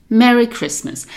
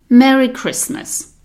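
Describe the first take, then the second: The two takes are said the same way.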